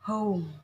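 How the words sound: The vowel is a rounded o-sound gliding to u. "tapi kalau American home"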